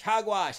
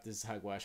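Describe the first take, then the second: First: High, loud Hogwash! yelled; mock shout. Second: Said in the usual way. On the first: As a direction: bellow it in mock outrage. Mock outrage at the claim.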